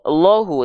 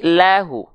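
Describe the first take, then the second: First: The L is thick with an o-like vowel. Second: The L is thin with a clear a vowel. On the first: The speaker calls it wrong. "tidak lo, lohu" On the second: The speaker calls it right. "tidak tapi lahu"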